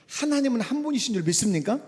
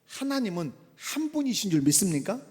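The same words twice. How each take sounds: First: Higher and a bit louder, pressing for an answer; emphatic repeat. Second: Said in the usual way. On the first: Shown as a demonstration. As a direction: ask again and demand a response. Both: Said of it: "제가 질문할게요".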